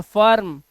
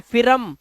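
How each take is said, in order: First: फर्म with an "uh" vowel, one syllable; correct firm. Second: FIRM misread as फिरम, two syllables with short i; mispronounced firm. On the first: Teacher applying the rule for pupils, फर्म with an "uh" vowel. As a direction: say फर्म, no "ih" sound. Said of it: "आई को ना अ पढ़ेंगे". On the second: Teacher showing the wrong reading of firm, mispronounced as फिरम. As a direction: say फिरम, sounding i then r. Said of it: "इसे फिरम नहीं पढ़ना है". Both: Shown as a demonstration.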